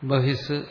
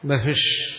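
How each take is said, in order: First: The word ends with an s sound. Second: The word ends with an sh sound. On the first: The speaker calls it right. "ബഹിസ്സെന്നാണ് ശരിക്കും" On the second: The speaker calls it wrong. "ഇവിടെ ബഹിഷെന്നാ വളർത്തിരിക്കുന്നു"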